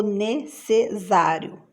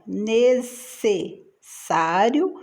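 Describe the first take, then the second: First: "necessário" slowly, ending in -ZÁRIO; Z sound. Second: Said in the usual way. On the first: Shown as a demonstration. Teacher offering the wrong option, "necessário" with Z for SS. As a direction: say "necessário" as ne-ce-ZÁ-rio. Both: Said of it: "dois S's".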